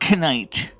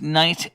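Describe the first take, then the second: First: The word starts with a pronounced K sound. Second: The word starts with an N sound. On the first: The speaker calls it wrong. "So it's not knight" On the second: The speaker calls it right. "the K is silent. It's knight"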